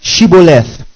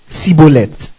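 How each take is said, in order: First: The word begins with a 'sh' sound. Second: The word begins with an 's' sound. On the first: The speaker calls it right. "then say what?" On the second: The speaker calls it wrong. "For he could not what? Pronounce it right"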